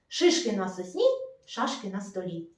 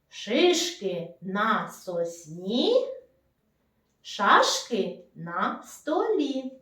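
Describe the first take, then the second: First: It is said very quickly. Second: It is said at a normal, unhurried pace.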